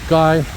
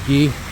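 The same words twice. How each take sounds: First: It is said with an English pronunciation. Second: It is said with a French pronunciation. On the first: "English would be Guy" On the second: "French would be Guy"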